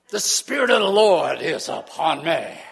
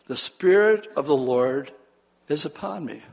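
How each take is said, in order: First: It is said in an overblown preacher style. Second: It is said plainly and calmly.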